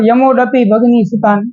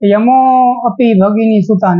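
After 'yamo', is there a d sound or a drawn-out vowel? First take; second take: d sound; drawn-out vowel. First: A d sound is inserted after yamo. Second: The vowel after yamo is drawn out long. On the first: The speaker calls it wrong. "ઘણા વૈષ્ણવ યમોડપી ભગની સુતાન એમ બોલતા" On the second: The speaker calls it right. "લંબાવાનો હોય"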